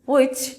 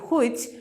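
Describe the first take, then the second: First: The word begins with a w sound. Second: The word begins with an h sound. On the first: The speaker calls it right. "The sounds আর" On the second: The speaker calls it wrong. "আমরা বলছি হুইচ"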